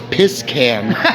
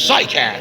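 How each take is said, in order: First: The name begins with a P sound. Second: The name begins with an S sound. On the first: The speaker calls it wrong. "a lot of times people said it as piss can" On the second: The speaker calls it right. "Thank you for saying it right"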